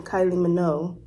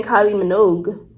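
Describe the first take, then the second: First: Minogue said with no final G, ending on "noh"; without the G. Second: Minogue said with a hard G at the end, "mi-NOHG". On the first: Retold or imitated. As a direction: let "Minogue" end on the vowel, no G. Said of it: "He said [name]". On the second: Shown as a demonstration. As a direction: sound the G in "Minogue" clearly. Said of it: "with the G".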